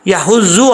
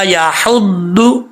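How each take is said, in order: First: The middle consonant sounds like a Z. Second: The middle consonant is a heavy emphatic sound. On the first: The speaker calls it wrong. "ना ही इसको ज़ौद पढ़ना है" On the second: The speaker calls it right. "इसका असल मखरज"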